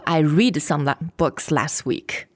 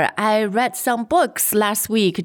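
First: The word read sounds like reed. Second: The word read sounds like red. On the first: The speaker calls it wrong. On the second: The speaker calls it right.

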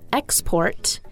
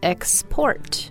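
First: The stress is on the first syllable. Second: The stress is on the second syllable. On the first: It is a noun. "We also mentioned export" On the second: It is a verb. "but now it's export"

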